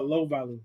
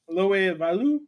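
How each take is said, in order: First: The name is said plainly, without an accent. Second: The name is said with an added accent. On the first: The speaker calls it right. "My bad" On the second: The speaker calls it wrong. "I don't know why I put an accent on that"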